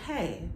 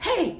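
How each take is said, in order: First: It is said quietly and calmly. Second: It is said loudly and forcefully. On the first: A calm presence settles the situation. The speaker calls it right. "It's a quiet stillness" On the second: Everyone is being ordered to calm down. The speaker calls it wrong. "it's not like"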